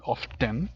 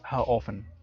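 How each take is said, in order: First: "often" with a clearly sounded t; over-mark the t in "often", British style. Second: "often" with a silent t; American often. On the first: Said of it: "que es muy marcado, muy British". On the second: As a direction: say "how often" the American way, no t sound. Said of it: "lo más usual en inglés americano". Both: Shown as a demonstration.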